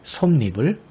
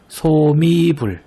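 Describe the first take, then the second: First: 솜니불 said as [솜니불], m closing the first syllable, then n; correct reading with n-insertion. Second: 소미불 drawn out slowly and loosely linked as [소-미-불]; wrong reading without n-insertion. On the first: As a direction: close 솜 on m and start 니 with a clear n. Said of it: "이것이 아니라 솜니불". (솜니불을 ㄴ을 첨가해 [솜니불]로 발음) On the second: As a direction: stretch 소미불 syllable by syllable, single m, no n. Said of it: "이것이 아니라". (소미불을 ㄴ 첨가 없이 천천히 [소미불]로 발음) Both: Shown as a demonstration.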